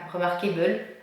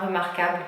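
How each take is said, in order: First: The word is pronounced the English way. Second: The word is pronounced the French way.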